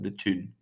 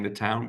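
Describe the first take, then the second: First: It is said in a Geordie accent. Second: It is said in standard English.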